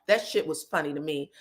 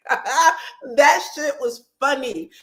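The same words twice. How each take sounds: First: Said in the usual way. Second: Slow, higher and louder, savouring each word; drawn-out amused emphasis. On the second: Real, not acted. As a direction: stretch it out like it still cracks you up. Recapping reality show, amused.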